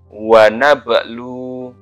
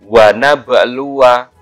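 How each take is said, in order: First: The phrase ends on a vowelless w sound. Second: The phrase ends with a short vowel after w. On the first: The reader stops at this word. "kalau dibaca uh, wakof maka wawunya sukun" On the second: The reading continues on without stopping. "saya baca yang wasal dulu ya"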